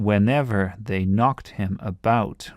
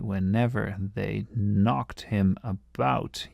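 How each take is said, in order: First: "knocked" hit hardest, slow read; scanning the stresses. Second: Very slow, "knocked" stressed, falling end; scanning the stresses slowly. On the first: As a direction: stress "knocked" and "about" in the line. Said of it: "you can hear it here". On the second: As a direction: drag out the three beats. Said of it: "You can see there's three there". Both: Shown as a demonstration.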